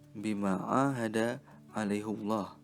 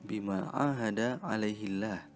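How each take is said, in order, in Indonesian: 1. Kata gantinya berakhir dengan u, dengan Allah yang tebal. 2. Kata gantinya berakhir dengan i, dengan Allah yang ringan. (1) "membacanya dengan dhammah" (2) "membaca dhamir dalam ayat ini dengan kasrah"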